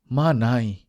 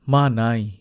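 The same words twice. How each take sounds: The two takes are said the same way.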